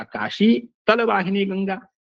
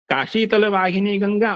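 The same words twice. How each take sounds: First: "Kashi", a stop, then "तल वाहिनी Ganga"; pause after Kashi. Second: "Kashi तल वाहिनी Ganga" in one unbroken flow; no break between Kashi and तल; run together. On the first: Teacher shows the pause changing meaning, pause after Kashi. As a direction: set Kashi apart from तल with a break. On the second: Teacher gives the first reading of the example, run together. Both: Shown as a demonstration. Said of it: "जो यति है उससे अर्थ में भेद".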